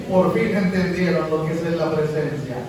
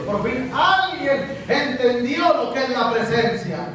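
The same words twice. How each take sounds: First: Said in the usual way. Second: Slow, stretched stress on "alguien" and "entendió"; emphatic proclamation. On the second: Shown as a demonstration. Preacher has the congregation repeat the phrase, emphatic stress on "alguien". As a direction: draw out "alguien" with rising pitch, then land "la presencia".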